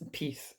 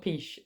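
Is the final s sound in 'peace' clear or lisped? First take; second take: clear; lisped. First: The final s sound is clear. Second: The final s sound is lisped. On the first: The speaker calls it right. "it's peace" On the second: The speaker calls it wrong. "I don't even know whether you call that a lisp or what, but it's not peace"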